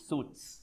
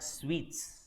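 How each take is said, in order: First: The word is said like 'suits'. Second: The word is said like 'sweets'. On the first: The speaker calls it wrong. "not suits" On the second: The speaker calls it right. "It's called suites"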